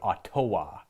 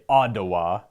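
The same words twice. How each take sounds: First: The middle consonant sounds like a T. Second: The middle consonant sounds like a D. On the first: "instead of Ottawa" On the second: "double T's are D's"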